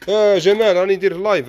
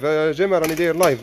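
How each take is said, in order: First: Loud high call across the shop; hailing a friend from afar. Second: A repeat hail, still raised; repeated call. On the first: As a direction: shout his name to get Jamal's attention. Calling to Jamal across shop. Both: Real, not acted.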